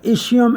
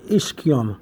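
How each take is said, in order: First: Ischium said with a soft sh; soft-sh pronunciation. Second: Ischium said with a hard k; key-sound pronunciation. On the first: Teacher showing both ways are correct, soft-sh version. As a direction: say ischium as ISH-ee-um. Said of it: "both ways are correct". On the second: Teacher showing both ways are correct, key-sound version. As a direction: say ischium as ISS-kee-um. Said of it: "can also have the key sound". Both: Shown as a demonstration.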